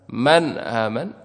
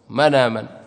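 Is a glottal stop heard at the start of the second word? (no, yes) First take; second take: yes; no. First: A glottal stop separates the two words. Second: The words run together without a glottal stop.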